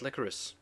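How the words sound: The word is pronounced the British way. "people of the U K, we say it licorice. That's how it's pronounced"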